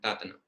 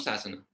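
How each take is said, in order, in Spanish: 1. La palabra empieza con un sonido t. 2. La palabra empieza con un sonido s. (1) "un laico birmano, pronunciará sasana como tatana" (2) "no sasana"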